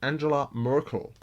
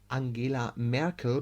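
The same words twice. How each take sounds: First: The name is pronounced the American way. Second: The name is pronounced the German way. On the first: The speaker calls it wrong. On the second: The speaker calls it right.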